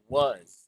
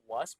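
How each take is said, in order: First: The word ends with a buzzing Z sound. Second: The word ends with a hissing S sound. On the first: "It sounds like Z" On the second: "it's okay to say it was with an S"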